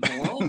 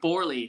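First: The name is said without an R sound. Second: The name is said with an R sound. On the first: The speaker calls it wrong. "I've been saying Borle" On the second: The speaker calls it right. "but it's Borle"

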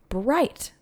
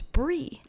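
First: The ending is said as spelled, 'bright'. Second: The ending is said without the t, 'bree'. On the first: The speaker calls it wrong. "it's spelled like Kirkcudbright. Bright" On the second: The speaker calls it right. "And it's Brie"

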